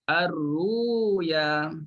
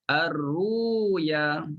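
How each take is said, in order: First: The middle consonant sounds like w. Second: The middle consonant sounds like w.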